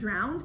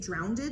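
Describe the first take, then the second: First: The word is said with one syllable. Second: The word is said with an extra syllable. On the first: The speaker calls it right. "Instead of saying drowned" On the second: The speaker calls it wrong. "people say drowned. I don't know why they have to add those extra letters in there"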